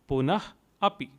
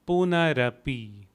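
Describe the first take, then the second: First: The two words are said separately, ending in h. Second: The two words are joined with an r sound. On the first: "split into punah and api" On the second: "Together it would be"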